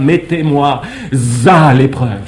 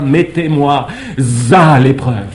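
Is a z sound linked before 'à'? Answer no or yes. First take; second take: yes; yes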